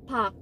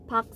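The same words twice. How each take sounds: No difference in how they are said.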